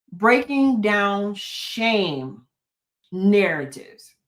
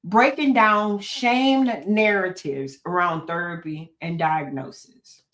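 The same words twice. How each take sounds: First: Slow, deliberate. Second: Said in the usual way. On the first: Shown as a demonstration. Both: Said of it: "I can say that over and over again".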